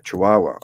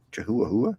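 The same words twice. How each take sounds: First: Chihuahua said chi-WAH-wah with silent h's; corrected pronunciation. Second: Chihuahua said chuh-HWA-hwa, both h's sounded; spelling pronunciation. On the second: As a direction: read Chihuahua letter by letter, voicing every h. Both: Shown as a demonstration. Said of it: "That's what it, Chihuahua looks like in writing?".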